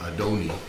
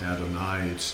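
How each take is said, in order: First: The last vowel sounds like 'ee'. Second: The last vowel sounds like 'eye'. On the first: The speaker calls it right. "pronounced like a long E instead of an I" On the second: The speaker calls it wrong. "not Adonai"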